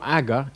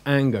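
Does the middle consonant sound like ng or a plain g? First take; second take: plain g; ng. First: The middle has a plain g with no ng. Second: The middle has an ng sound before g. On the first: The speaker calls it wrong. "It's not aga" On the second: The speaker calls it right. "it's anger, because there's two gammas together"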